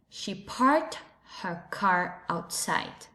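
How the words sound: It is said in an American English accent. "The second phrase in American English"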